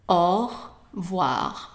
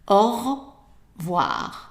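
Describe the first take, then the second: No difference in how they are said.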